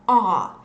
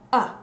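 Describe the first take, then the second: First: The word is said with a full 'ar' vowel. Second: The word is reduced to a short schwa. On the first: "we don't usually pronounce it as are" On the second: "we very often pronounce it as uh"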